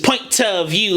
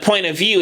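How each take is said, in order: First: The T in point is crisply pronounced. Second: The T in point is soft or dropped. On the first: The speaker calls it right. "you hear that T of point of you" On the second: The speaker calls it wrong. "instead of"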